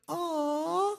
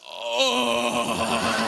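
First: It is said in a soft, sweet voice. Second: It is said in a coarse, rough voice.

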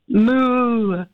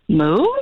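First: It is said in a plain, regular way. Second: It is said in a confused way.

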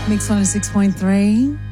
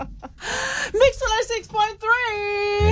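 First: It sounds flat and depressed. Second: It sounds lively and upbeat.

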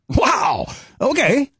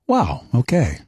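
First: It sounds shocked and surprised. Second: It sounds warm and supportive.

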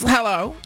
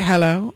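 First: It is said in a polite work voice. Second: It is said in a stern mom voice.

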